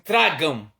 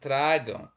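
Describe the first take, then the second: First: It is said as a harsh, threatening command. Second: It is said as a gentle, loving invitation.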